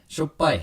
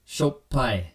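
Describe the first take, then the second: First: It is said quickly at natural speed. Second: It is said slowly with a hard stop. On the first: "At Japanese speed" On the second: "double P gives sort of that hard stop there"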